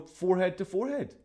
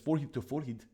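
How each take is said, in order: First: It is said in a plain, neutral way. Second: It is said in a broad Scottish way.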